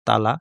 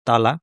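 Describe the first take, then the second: Both takes have the same delivery.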